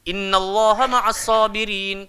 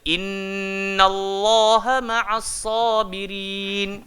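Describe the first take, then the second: First: The nasal hum is left out. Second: The nasal hum is clearly held. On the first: The speaker calls it wrong. "Kalau kita tinggalkan dengung, terus tak sedap" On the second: The speaker calls it right. "Dia mesti ada ... baru sedap"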